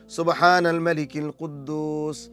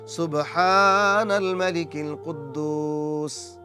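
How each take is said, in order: First: It is said at normal length. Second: It is said slowly and drawn out.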